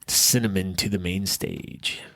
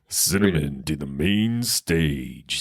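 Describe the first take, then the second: First: It is said in a plain speaking voice. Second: It is said like a strip club announcer.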